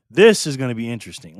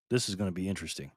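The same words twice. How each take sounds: First: Louder announcement, stress on THIS; emphatic repeat. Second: Quiet, low, quick aside. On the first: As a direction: announce it louder, hitting the first word. Repeats it up for the audience. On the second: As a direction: say it low and quick, half to yourself. First take, muttered before repeat. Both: Real, not acted.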